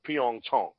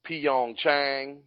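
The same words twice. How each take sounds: First: The name is said with Korean-style sounds. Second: The name is said with American English sounds. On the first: This shows respect for the host. The speaker calls it right. "That's how it should be said" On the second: This is the version used on air. The speaker calls it wrong. "it's an Americanized pronunciation"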